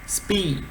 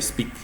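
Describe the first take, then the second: First: The vowel is said long and drawn out. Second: The vowel is said short and clipped. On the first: The speaker calls it right. "é uma vogal longa, ok? Então você dá uma alongada" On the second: The speaker calls it wrong. "Ao invés de speak"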